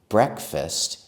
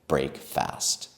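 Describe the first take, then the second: First: It is blended into one word, 'brek-fust'. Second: It is said as two words, 'brake fast'. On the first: "We also changed the pronunciation because saying breakfast is easier" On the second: "than saying break fast"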